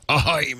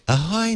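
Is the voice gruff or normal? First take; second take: gruff; normal. First: It is said in a rough, gruff pirate voice. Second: It is said in a plain, ordinary voice. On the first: It has the proper pirate flavor. The speaker calls it right. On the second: It lacks the pirate flavor. The speaker calls it wrong.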